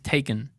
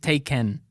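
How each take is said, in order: First: The second vowel is a short reduced uh. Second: The second vowel is a full clear e. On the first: The speaker calls it right. "Dices taken" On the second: The speaker calls it wrong. "No dices taken"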